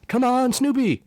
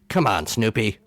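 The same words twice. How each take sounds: First: It sounds like lively, encouraging cheering. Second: It sounds exasperated and disappointed. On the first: The speaker is rooting for him. "like you're cheering for him on the ball field or something" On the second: The speaker is frustrated with him. "If your inflection for the phrase is"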